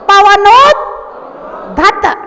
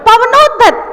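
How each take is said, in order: First: The word is split into pieces with a break. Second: The word is said whole without any break. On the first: "पहले टुकड़े टुकड़े में बोलो" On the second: "फिर एक साथ बोलो"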